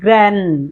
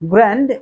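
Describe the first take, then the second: First: The final d sound is left silent. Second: The final d sound is pronounced. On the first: "American স্টাইলে যদি আপনি বলতে চান তাহলে কিন্তু আপনাকে বলতে হবে grand" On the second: "grand it's a basic"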